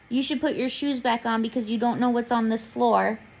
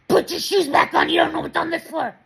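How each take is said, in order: First: It is said in a calm, gentle tone. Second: It is said in a harsh, confrontational tone.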